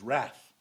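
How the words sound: The word is said the American way. "They pronounce it phonetically correct"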